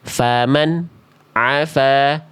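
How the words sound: A brief silent gap follows the nun sound. The speaker calls it wrong.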